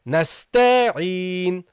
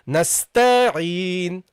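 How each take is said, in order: First: The vowel after the t is drawn out. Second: The same.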